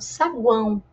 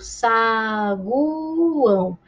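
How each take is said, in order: First: The vowels are joined in one syllable. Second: The vowels are split into separate syllables. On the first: The speaker calls it right. "eu falo saguão" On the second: The speaker calls it wrong. "Eu não falo saguão"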